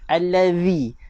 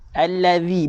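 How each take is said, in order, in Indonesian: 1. Konsonan di tengah itu bunyi th yang lembut. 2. Konsonan di tengah itu bunyi th yang lembut.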